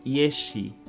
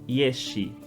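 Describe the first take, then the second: Both takes have the same delivery.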